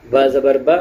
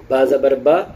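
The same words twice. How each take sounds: The two takes are said the same way.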